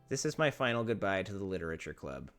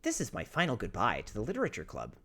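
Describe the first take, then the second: First: It is read in the speaker's own voice. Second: It is read in an imitation of Monica's voice.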